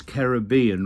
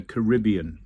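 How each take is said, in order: First: Caribbean said as "karra-BEE-un"; "Caribbean" with a long stressed BEE; stress on third syllable. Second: Caribbean said as "kuh-RIB-ee-un"; "Caribbean" with a short stressed RIB; stress on second syllable. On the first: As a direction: put the weight on BEE in Caribbean. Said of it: "I contend it's Caribbean rather than the Caribbean". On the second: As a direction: put the weight on RIB in Caribbean. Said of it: "rather than the Caribbean". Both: Shown as a demonstration.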